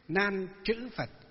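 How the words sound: The middle word is read with the 'chữ' sound. This is the Northern reading of the name. "miền Bắc chúng ta ngày xưa chúng tôi đi học Đức Pháp Chủ với các thầy là chữ chữ"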